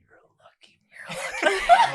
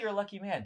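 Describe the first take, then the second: First: It is said in an eerie, echoing, sinister tone. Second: It is said in a plain, ordinary tone. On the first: A hidden threat behind the words. "but then it echoes" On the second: A simple friendly remark. "they say it like normal"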